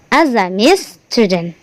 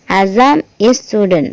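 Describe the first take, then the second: First: The words Azam and is run together. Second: The words Azam and is are said separately. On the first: The speaker calls it right. "Yang benar adalah" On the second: The speaker calls it wrong. "jangan dipisah. ... no, wrong"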